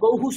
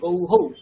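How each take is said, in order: First: The word ends with a short 'hu' syllable. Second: The word ends with an echoed 'hau' syllable. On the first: The speaker calls it right. "হু হয়ে যায়" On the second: The speaker calls it wrong. "গৌ হৌ ওরকম হওয়ার কথা ছিল ... কিন্তু ওখানেও হৌ হয় না"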